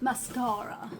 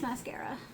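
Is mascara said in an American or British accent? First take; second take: British; American. First: It is said in a British accent. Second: It is said in an American accent.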